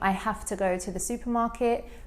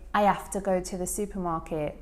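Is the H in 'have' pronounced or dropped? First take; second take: pronounced; dropped. First: The H at the start of 'have' is pronounced. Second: The H at the start of 'have' is dropped. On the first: "instead of saying" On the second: "reduction of the H sound"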